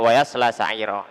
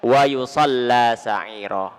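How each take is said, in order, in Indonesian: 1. Kata kerja itu memakai vokal a dan l tunggal. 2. Kata kerja itu memakai vokal u dan l ganda. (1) "Qiraah yang biasa kita baca" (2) "bi dhammil ya wa fathis shad ... dengan lam yang ditasydid"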